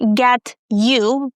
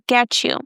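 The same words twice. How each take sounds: First: The t and y are said as separate sounds. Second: The t and y blend into a ch sound. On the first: The speaker calls it wrong. "Not get you" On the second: The speaker calls it right. "When T is followed by Y, it makes the ch sound"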